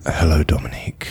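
It is said in a sexy, seductive voice.

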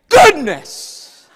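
It is said with strong, heated feeling. The speaker is holding back from cussing. "with great passion like I say it"

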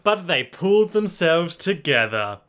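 It is read in a children's-book storytelling voice.

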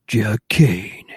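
It is said in a put-on performing voice.

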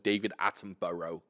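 The name is said with an American pronunciation.

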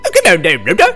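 It is said in a put-on Scottish accent.

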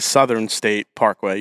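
The middle sound of Southern is a th sound. "You don't say"

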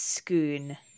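The word is said with a Scottish Gaelic pronunciation. "but Scottish Gaelic, it's Scone"

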